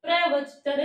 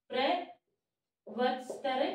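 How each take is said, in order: First: Said in the usual way. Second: Drawn out very slowly, syllable by syllable; slow dictation. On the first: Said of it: "प्रवचतर (repeated slowly)". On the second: Shown as a demonstration. Teacher dictating a Sanskrit word to students, very slowly. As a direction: stretch प्रवचतर out so students can write it. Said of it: "प्रवचतर (said once before)".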